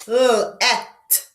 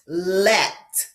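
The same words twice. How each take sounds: First: "L-et" broken into a held L, then EH-T; sounded out. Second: Said in the usual way. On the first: Shown as a demonstration. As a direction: split L-et after the L. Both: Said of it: "Repeat after me".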